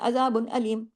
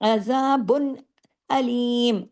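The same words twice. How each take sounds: First: Both words start with the same plain sound. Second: Azabun starts with a throaty sound, aleem plainly. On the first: The speaker calls it wrong. "अमूमन लोग एक ही लय में पढ़ देते हैं" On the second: The speaker calls it right. "अजा आइन को आइन की तरह, अलिफ की तरह नहीं, और अलीम को आई अलिफ की तरह"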